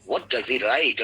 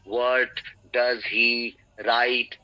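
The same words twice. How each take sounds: First: The words run together without pauses. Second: The words are separated by pauses. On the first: The speaker calls it right. "एक साथ एक flow में" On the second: The speaker calls it wrong. "अलग अलग word को separate नहीं करना है। व्हाट डज ही राइट ऐसे नहीं"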